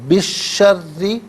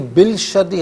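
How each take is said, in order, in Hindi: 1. कोई 'l' की आवाज़ नहीं; यह दोहरे 'sh' में मिल जाती है। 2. 'sh' से पहले 'l' की आवाज़ सुनाई देती है।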